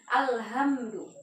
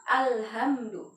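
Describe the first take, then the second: The two takes are said the same way.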